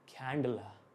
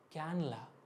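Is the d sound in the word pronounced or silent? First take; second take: pronounced; silent. First: The d sound in the middle is pronounced. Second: The d sound in the middle is dropped. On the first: "उन्होंने बोला था कैंडला" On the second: "कुछ लोग तो डी silent कर लेते थे"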